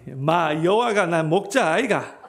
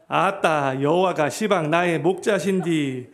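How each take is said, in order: First: It is said in Gyeongsang dialect. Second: It is said in Jeolla dialect.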